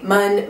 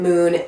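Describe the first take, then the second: First: The vowel is a short 'uh' sound. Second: The vowel is a long 'oo' sound. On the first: The speaker calls it wrong. "I always say Mun" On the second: The speaker calls it right. "the brand now is actually pronounced Moon"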